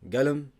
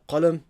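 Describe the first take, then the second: First: The word begins with a hard g sound. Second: The word begins with a deep q sound.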